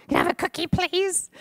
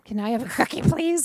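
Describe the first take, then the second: First: Put-on high, sweet little girl asking. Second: Put-on child asking sweetly. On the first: Girl at the door begging for a cookie, high sweet child voice. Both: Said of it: "That's how she said it".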